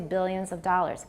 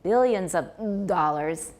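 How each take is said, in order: First: The consonants have almost no voicing. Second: The consonants are buzzed with heavy voicing. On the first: The speaker calls it right. "we don't usually voice them" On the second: The speaker calls it wrong. "They will add a lot of voicing"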